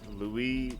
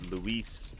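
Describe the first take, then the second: First: The name is said with French pronunciation. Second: The name is said with Spanish pronunciation. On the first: "Louis would be more of the French pronunciation"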